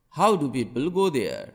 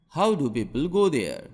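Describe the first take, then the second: No difference in how they are said.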